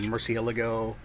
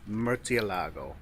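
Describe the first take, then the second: First: The name is pronounced the common English way. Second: The name is pronounced the Italian way. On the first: "a lot of people say Murcielago" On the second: "I've heard Italians say it, and they say Murcielago"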